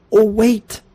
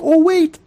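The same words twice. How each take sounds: First: Sudden high fake alarm, teasing; sly prank "oh wait"; mock alarm. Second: Much higher, louder squeaky fake alarm; hammed-up prank "oh wait"; bigger mock alarm. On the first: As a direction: pretend you just spotted a problem with his lock. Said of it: "and I go". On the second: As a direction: crank the fake panic up. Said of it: "I'm like".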